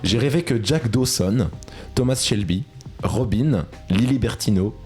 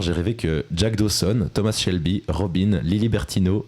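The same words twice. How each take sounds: First: The sentence is spoken more slowly, names drawn out. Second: The sentence is spoken at a normal, quicker pace.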